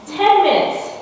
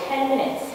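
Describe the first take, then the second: First: "ten minutes" jumps much higher and louder, hitting ten; stress on ten. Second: Said in the usual way. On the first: Real, not acted. To the room, indignant that ten minutes fixed it, "ten" stressed. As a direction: punch "ten" up high with outrage.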